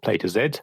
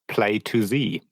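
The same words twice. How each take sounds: First: The final letter is said as zed. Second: The final letter is said as zee.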